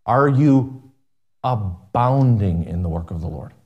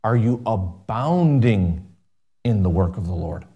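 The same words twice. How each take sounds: First: Abounding pressed, then the voice drops low on the work of the Lord; stress on abounding. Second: Abounding drawn out slowly, then the work of the Lord falls much lower; slow down and lean hard on abounding; slow stress on abounding. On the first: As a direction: ask it pointedly, hanging on abounding. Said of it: "let me ask you this question". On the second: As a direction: pastor repeating his question more deliberately. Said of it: "I didn't ask you if you're doing something". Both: Acted.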